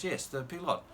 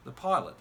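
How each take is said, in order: First: Put-on pilot said as peelot, French vowels, light French accent; hint of French accent. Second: Said in the usual way. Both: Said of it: "I won't do the French accent".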